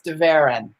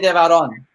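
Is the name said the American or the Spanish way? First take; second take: American; Spanish. First: The name is said with an American pronunciation. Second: The name is said with a Spanish pronunciation. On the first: This is how people in America say it. "the Americanized way people say it" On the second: This is how it is said in Spain. "if you were in Spain, you'd say"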